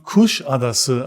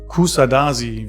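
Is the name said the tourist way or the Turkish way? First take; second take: Turkish; tourist. First: The name is said in the Turkish way. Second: The name is said in the tourist way. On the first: The speaker calls it right. "Diese Stadt spricht man Kuşadası aus" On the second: The speaker calls it wrong. "nicht Kusadasi, wie ich es oft von Touristen gehört habe"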